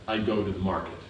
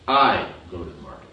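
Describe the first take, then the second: First: Said in the usual way. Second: I stressed, a bit louder, pitch falling; I pushed out front, rest of the line falls away. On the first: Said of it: "I go to the market. Means I go". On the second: Shown as a demonstration. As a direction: lean on I. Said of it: "Means I go, you don't go".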